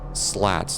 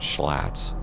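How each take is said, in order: First: The word begins with a plain s sound. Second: The word begins with a sh sound. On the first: The speaker calls it right. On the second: The speaker calls it wrong. "not schlats. Sounds like a kind of a beer from Milwaukee"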